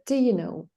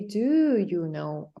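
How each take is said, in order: First: The vowel in 'do' is reduced to schwa. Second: The vowel in 'do' is full and clear. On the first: The speaker calls it right. "We call it schwa. And we say, d, do you know?" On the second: The speaker calls it wrong. "Why don't we say, do you know?"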